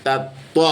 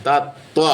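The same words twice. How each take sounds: No difference in how they are said.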